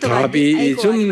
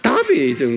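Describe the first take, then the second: First: The word is said flat, without a strong accent. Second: The word is said with a strong, loud accent. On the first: Native listeners would not understand it. The speaker calls it wrong. "다비이즘 그러면 그 사람들은 못 알아들어요" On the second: Native listeners would understand it. The speaker calls it right. "이 영어는 항상 액센트가 있어요. 그러니까 다비이즘 그래야 돼"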